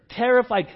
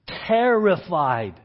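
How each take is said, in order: First: Said in the usual way. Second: Slow emphasis. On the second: Shown as a demonstration.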